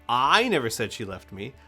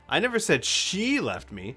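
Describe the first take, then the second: First: The stress is on the word I. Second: The stress is on the word she.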